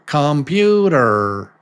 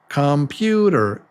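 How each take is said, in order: The two takes are said the same way.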